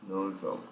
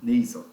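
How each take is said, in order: First: Nasal said NO-zal, a tentative reading; hesitant guess. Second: Nasal as NAY-zl, said louder and clearer; corrected pronunciation, louder. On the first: Teacher testing her guess before the app answers, tentative. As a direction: try Nasal as NO-zal, unsure. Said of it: "Vamos ver se a pronúncia é essa". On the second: Teacher repeating the app's correct sound, a bit louder. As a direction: echo the app firmly: NAY-zl. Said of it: "essa pronúncia é cavity mesmo". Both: Shown as a demonstration.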